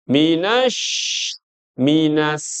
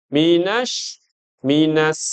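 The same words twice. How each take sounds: No difference in how they are said.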